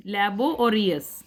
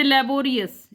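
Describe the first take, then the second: First: लेबो and Reis spoken slowly as two separate chunks; split into syllables. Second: Said in the usual way. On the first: Shown as a demonstration. Teacher slowly splitting laborious into लेबो and Reis for students. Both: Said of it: "लेबो और रियस दो हैं".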